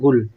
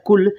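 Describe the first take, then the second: First: The word begins with a voiced g sound. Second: The word begins with a voiceless k sound. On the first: This is how people say it in everyday speech. "लेकिन लोग बोलते हैं गुल" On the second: This is the written and recited form. "अरबी में ऐसे लिखा जाता है कुल"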